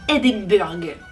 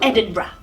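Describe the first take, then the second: First: The word ends with a hard 'burg' sound. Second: The word does not end with 'burg'. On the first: The speaker calls it wrong. "Ce qu'il faut absolument éviter, ... ça ne finit pas par le burg" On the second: The speaker calls it right. "ce qu'il faudrait prononcer hein, pour être un bon écossais"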